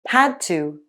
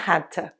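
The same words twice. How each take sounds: First: Both words are said fully and clearly. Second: The words blend into a quick reduced form.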